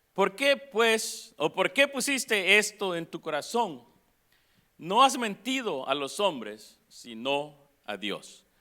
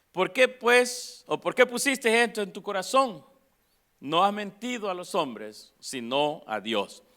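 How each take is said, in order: No difference in how they are said.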